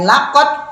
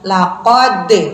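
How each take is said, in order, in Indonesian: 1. d terakhir berhenti datar tanpa pantulan. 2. d terakhir dilepas dengan pantulan. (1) "tidak hanya laqad" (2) "tapi ada pantulannya"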